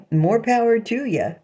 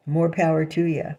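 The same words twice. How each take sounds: First: Laughing it off with a high chuckle. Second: Said in the usual way. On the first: Real, not acted. To the people mocking her, a laughing dismissal. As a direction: laugh through the words, dismissive. Laughing off critics' sexual tastes.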